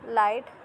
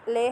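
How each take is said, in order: First: It sounds like English 'light', ending in t. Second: It sounds like 'lay', with no final t. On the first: The speaker calls it wrong. "Not लाइट" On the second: The speaker calls it right. "इसकी जो प्रोनाउंसिएशन है वो कैफ़े ओ ले ले है"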